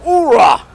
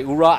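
First: Higher, louder barked Marine call; hearty oorah shout. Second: Said in the usual way. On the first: Retold or imitated. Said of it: "The Marines go". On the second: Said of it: "we say".

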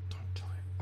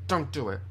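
First: Very soft, whispered warning; frightened whisper. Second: Said in the usual way. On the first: Real, not acted. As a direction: whisper it nervously. Same words, now under breath.

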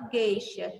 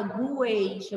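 First: "gueixa" with a hard G and silent U, GHEI-sha; U mudo. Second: "gueixa" with the U sounded, as gu-EI-sha; U pronunciado, errado. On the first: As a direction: say "gueixa" without any W sound. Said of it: "você fala gueixa". ("gueixa" com o U mudo, G duro) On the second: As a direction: say "gueixa" with a GW at the start. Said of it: "você não fala gueixa". ("gueixa" com o U pronunciado, güeixa) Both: Shown as a demonstration.

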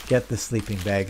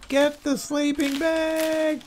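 First: Said in the usual way. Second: High, drawn-out mock scream of viewers; mock yelling. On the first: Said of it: "were yelling at me saying". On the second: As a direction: yell it like exasperated viewers, stretched and high-pitched. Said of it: "people were yelling at the screen saying".

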